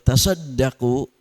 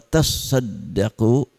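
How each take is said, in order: First: It is read quickly without a doubled consonant. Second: It is read slowly with a doubled consonant. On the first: Charity given lightly. "berarti cepat" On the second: Charity that feels heavy. "berarti agak lambat karena ada tasydid"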